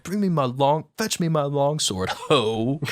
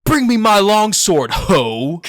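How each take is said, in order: First: Light, slightly raised offhand line; dismissive retelling. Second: Booming, high, shouted line with a mocking dismissive inflection; bellowed dramatic line. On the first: Retold or imitated. Retelling the classroom line, mildly dismissive. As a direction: say it like brushing someone off. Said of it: "a dismissive". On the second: Student hamming up a Shakespeare line in class, loud mock bellow. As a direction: bellow it like a ham actor calling for a sword. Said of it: "it's like inflection".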